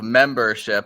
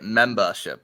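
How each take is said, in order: First: It is said in a plain, general accent. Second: It is said in a Boston accent. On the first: "instead of membership" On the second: "I break into the accent"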